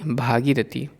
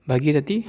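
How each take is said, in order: First: भागीरथी with a long भा; the proper भागीरथी; correct form. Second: भगीरथी with a short भ; the mistaken भगीरथी; wrong form. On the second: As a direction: say भगीरथी, first vowel short. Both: Shown as a demonstration. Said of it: "अशुद्ध और शुद्ध रूप".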